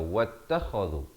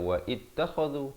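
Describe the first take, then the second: First: Wa runs straight into the doubled t. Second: Wa and ittakhadhu are said as separate parts. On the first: The speaker calls it right. "tapi baca wattakhadhu" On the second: The speaker calls it wrong. "jangan baca wa ittakhadhu"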